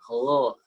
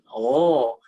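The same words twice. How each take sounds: First: The throat sound is made less deep. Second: The throat sound is made very deep. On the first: "kalau murattal nggak sampai oh, tapi cukup oh" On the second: "Kalau di mu'allam dia sangat dalam"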